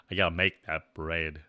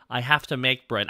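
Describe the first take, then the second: First: Low, softer natural register; actual voice. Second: Higher cute character register; little guy voice. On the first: Streamer showing chat the real voice, low and natural. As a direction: drop well down into your real voice. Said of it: "My actual voice". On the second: Streamer as chibi avatar, higher little-guy voice. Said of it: "talking higher up here when I'm a little guy". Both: Shown as a demonstration.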